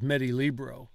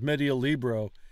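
First: Vowels running together between the words are dropped. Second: Every vowel between the words is pronounced. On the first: "It's going to come out as" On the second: "here it's"

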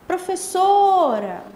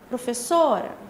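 First: The word is drawn out long. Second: The word is said short.

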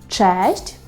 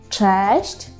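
The two takes are said the same way.

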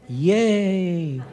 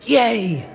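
First: The cheer is said weakly, with little energy. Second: The cheer is said strongly, with more energy.

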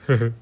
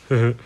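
The two takes are said the same way.

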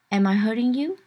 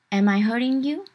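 No difference in how they are said.

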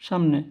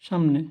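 Both takes have the same delivery.

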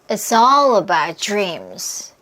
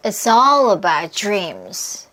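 First: Content words are strong and function words weakened. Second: The same.

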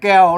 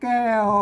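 First: It carries the ek tone instead of tho. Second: It carries the special Northern Thai tho tone. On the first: This is how Tai Lue and Tai Yong say it. "มันออกเป็นเสียงเอกนะครับแบบแก้ว" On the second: This is how Northern Thai (Chiang Mai) says it. "โทพิเศษโทเมือง"

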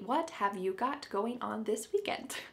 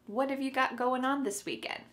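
First: Every word is pronounced clearly and separately. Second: The first words blend together and the final g drops. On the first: The speaker calls it wrong. "we don't say it that clearly" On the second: The speaker calls it right. "So what and have are gonna be pushed together"

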